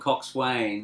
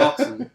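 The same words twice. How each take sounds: First: It is said in full, like cox-swain. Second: It is clipped short, like cox-un. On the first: This is how the letters suggest it sounds. "it's written coxswain" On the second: This is how people actually say it. "but it's a"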